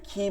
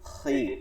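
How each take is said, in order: First: The syllable is pronounced thin and light. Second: The syllable is pronounced heavy and full. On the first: The speaker calls it wrong. "খি বলি নাই কিন্তু" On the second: The speaker calls it right. "খি মোটা"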